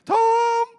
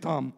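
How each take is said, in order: First: It is said at a high pitch. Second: It is said at a normal pitch.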